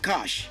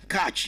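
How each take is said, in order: First: The word ends with an 'sh' sound. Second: The word ends with a 'ch' sound. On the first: The speaker calls it right. "pronounced like C A S H" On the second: The speaker calls it wrong. "some of you that said catch"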